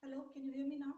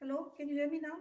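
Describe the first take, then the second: First: Faint voice far from the mic; very soft, distant call; barely audible. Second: Slightly less faint, still far off; soft, distant but clearer; barely audible. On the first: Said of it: "your voice is very low". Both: Real, not acted.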